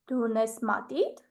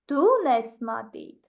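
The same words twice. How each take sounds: First: The stress is on the word matit. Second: The stress is on the word du. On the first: Asks whether you have a pencil or a pen. "I will put the stress on the word pencil" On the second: Asks whether it is you or someone else who has a pencil. "I will just put the stress on the word you"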